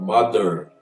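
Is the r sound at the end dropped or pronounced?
pronounced. The word ends with a pronounced r sound. "se for um American pronounce... ele vai falar mother. Er, er, er"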